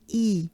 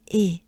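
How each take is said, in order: First: "E" as ee, lips spread wide; banana-smile i. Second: "E" as closed French é, near ay without a glide. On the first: Teacher showing the vowel to avoid, ee sound. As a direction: say "E" as a smiling ee. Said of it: "It's not E". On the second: Teacher reminding learners of the vowel in Des, French é. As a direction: say "E" like a short, pure ay. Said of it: "Remember, it's E". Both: Shown as a demonstration.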